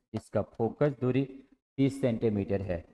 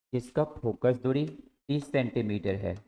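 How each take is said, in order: The two takes are said the same way.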